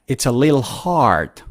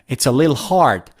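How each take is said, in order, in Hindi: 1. Little एक ही अक्षर में छोटा होकर lil बन जाता है। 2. Little एक ही अक्षर में छोटा होकर lil बन जाता है।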